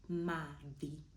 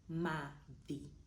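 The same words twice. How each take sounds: No difference in how they are said.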